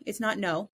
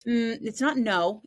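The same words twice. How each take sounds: First: Said in the usual way. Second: NOT held long, louder and slow; stress on NOT. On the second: Real, not acted. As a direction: lean hard on NOT in it's not no.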